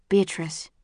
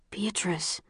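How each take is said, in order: First: Stern. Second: Hushed, breathy whisper of a name; urgent hushed whisper; quiet warning. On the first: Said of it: "looking sternly into my eyes". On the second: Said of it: "Caleb says quietly". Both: A narrator's reading.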